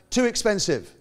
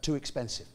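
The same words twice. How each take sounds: First: It is said a bit louder. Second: It is said at normal, softer volume.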